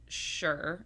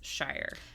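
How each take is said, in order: First: The vowel sounds like 'oor' in 'poor'. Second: The vowel sounds like 'eye' in 'fire'. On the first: The word ends a longer place name. "if that's the end of the word, it's pronounced sure or sheer" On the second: The word stands on its own. "alone, standing on its own, it's shire"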